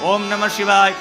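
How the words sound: It is spoken aloud in full voice. This is the lowest form of chanting. "વાચિક છે એનાથી નિમ્ન"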